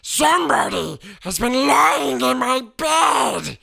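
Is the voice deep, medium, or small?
deep. It is said in a deep, gruff voice.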